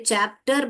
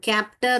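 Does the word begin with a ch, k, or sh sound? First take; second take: ch; k. First: The word begins with a ch sound. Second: The word begins with a k sound. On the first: The speaker calls it right. "यहाँ पे चैप्टर बोलते हैं हम" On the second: The speaker calls it wrong. "कैप्टर और शैप्टर नहीं बोलते हैं हम"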